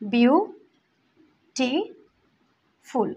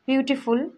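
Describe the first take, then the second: First: The word is split with pauses between syllables. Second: The word is said smoothly without breaks.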